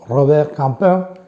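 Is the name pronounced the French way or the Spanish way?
French. The name is said with French pronunciation.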